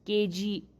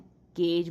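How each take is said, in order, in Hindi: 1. शब्द के अंत में एक अतिरिक्त स्वर ध्वनि है। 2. शब्द व्यंजन पर खत्म होता है, कोई स्वर नहीं। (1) "नहीं बोलना है" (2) "केज बोलना है"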